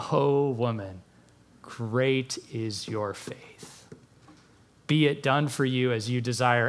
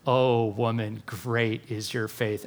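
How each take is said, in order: First: Lower, softer, slow and tender; hushed, tender wonder at her faith; tender praise. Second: Hushed and tender, a little slower; tender praise. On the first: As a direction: speak it gently, like a blessing. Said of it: "And then he says". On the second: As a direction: lower and softer, gently admiring. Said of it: "he goes". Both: Retold or imitated.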